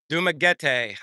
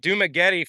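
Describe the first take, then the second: First: The name is said in a careful, precise way. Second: The name is said in a lazy, careless way. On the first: The speaker calls it right. "I should say" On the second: The speaker calls it wrong. "I pronounce it wrong. I got lazy"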